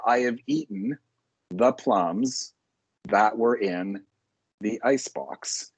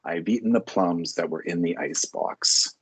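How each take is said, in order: First: There are long pauses between the phrases. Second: There are short pauses between the phrases. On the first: The speaker calls it wrong. "That would be incorrect" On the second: The speaker calls it right. "A little pause, a little more pause at each at the end of each line, not a long pause"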